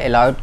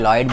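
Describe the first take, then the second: First: The name starts with an extra vowel before L. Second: The name starts directly with the L sound. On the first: This is how the shop staff say it. "इसको sir एलॉयड हम लोग बोलते हैं" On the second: This is how customers often say it. "या लॉयड बोलते हैं"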